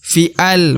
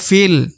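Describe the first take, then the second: First: The vowel and lam are split into two syllables. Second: The vowel runs straight into the lam, one syllable. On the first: The speaker calls it wrong. "bukan fi'al, bukan ya, bukan seperti itu" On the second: The speaker calls it right. "tapi dibaca fil"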